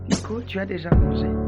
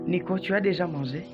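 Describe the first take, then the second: First: It is said in a calm, neutral tone. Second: It is said in an angry, rising tone. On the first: It is a simple question about eating. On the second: It is a reproach for having eaten.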